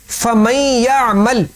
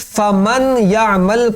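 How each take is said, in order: First: The n blends into the following y sound. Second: The n is clearly pronounced before the y. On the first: The speaker calls it right. "ये उसकी सही तिलावत है" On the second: The speaker calls it wrong. "नून को आपने जाहिर नहीं करना था, आपने जाहिर कर दिया"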